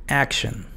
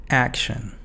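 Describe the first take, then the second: The two takes are said the same way.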